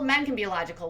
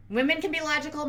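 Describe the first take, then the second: First: "men" in "men can be logical" hit as the new subject; weight shifts to "men"; stress on men. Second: "can" in "Women can be logical" lifted high and leaned on; rising weight on "can"; stress on can. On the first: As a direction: contrast with "men" up front. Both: Shown as a demonstration. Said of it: "Women can be logical, men can be logical".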